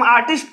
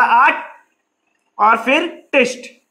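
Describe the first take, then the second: First: Said in the usual way. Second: "आर्ट", a pause, then "टिस्ट", each syllable on its own; broken into syllables. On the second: Shown as a demonstration. Teacher showing children how आर्टिस्ट breaks, syllable by syllable. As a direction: split आर्टिस्ट slowly into "आर्ट" and "टिस्ट" with a gap. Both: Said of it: "इसे हम तोड़-तोड़ करके".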